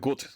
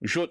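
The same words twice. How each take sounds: First: The word begins with a hard G sound. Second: The word begins with a Y sound. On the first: This is the ordinary German way. "instead of gut" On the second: This is how Berliners say it. "G turns into J"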